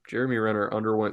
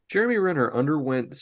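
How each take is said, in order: First: It is read in a natural normal voice. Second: It is read in a put-on special voice. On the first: The speaker calls it right. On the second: The speaker calls it wrong.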